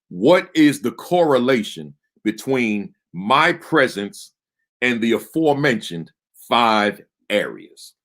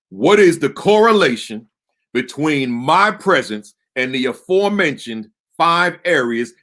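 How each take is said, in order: First: It is said at a normal speaking volume. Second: It is yelled loudly with much more force.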